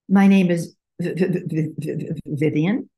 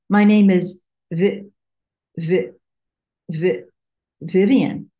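First: It stutters openly on the first sound. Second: It restarts the syllable in a controlled way.

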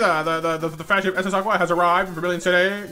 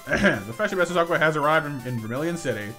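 First: It is read in an exaggerated put-on character voice. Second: It is read in the speaker's ordinary natural voice. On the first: "the stupid voice" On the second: "I don't need to do the stupid voice anymore"

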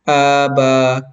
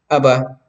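First: The first vowel is drawn out long. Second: The first vowel is short. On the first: The speaker calls it wrong. "hindi na tama. Kasi nga, naging mahaba na yung alif" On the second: The speaker calls it right. "sinabi natin aba kasi nga ito ay maikling katinig lang, hindi mahaba"

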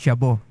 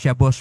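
First: The word ends with a vowel, without s. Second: The word ends with an s sound. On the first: The speaker calls it wrong. "magiging Shabo" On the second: The speaker calls it right. "baka maiba ang pag-pronounce mo ng Shabbos"

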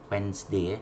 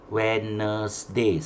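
First: The word is said in two syllables. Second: The word is said in three syllables. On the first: The speaker calls it right. "dua suku kata je" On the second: The speaker calls it wrong. "Jangan sebut Wednesday. Salah oh"

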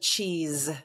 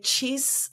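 First: The word ends with a buzzing Z sound. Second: The word ends with a hissing S sound. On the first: "I don't have the Z sound" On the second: "it's the S sound, as in sun"

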